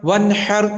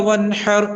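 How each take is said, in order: No difference in how they are said.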